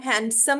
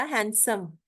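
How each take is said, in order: First: हैंडसम with the d sounded; wrong pronunciation. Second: हैंडसम said as han-sum, no d; correct pronunciation. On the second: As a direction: drop the d in हैंडसम. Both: Shown as a demonstration. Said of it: "हैंडसम नहीं होता".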